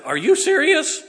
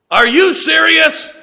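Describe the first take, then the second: First: High, loud disbelieving question; incredulous. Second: High, drawn-out loud mimicry; mock-incredulous shout. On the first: Retold or imitated. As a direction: squeal it like a stunned bride-to-be. Daughter's reaction to proposal retold. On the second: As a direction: throw her words back, hugely exaggerated. Father throws her words back at her.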